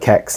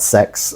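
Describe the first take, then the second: First: The name begins with a K sound. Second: The name begins with an S sound. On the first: The speaker calls it right. "I call it Kex" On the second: The speaker calls it wrong. "I just can't bring myself to call it sex"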